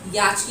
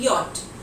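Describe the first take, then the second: First: The word ends with a ch sound. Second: The word ends with a t sound. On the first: The speaker calls it wrong. "याच की जगह" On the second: The speaker calls it right. "It will be यॉट"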